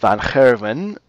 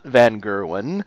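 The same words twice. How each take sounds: First: Gerwen starts with a throaty Dutch sound. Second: Gerwen starts with a plain English hard g. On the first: The speaker calls it right. "it actually is" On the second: The speaker calls it wrong.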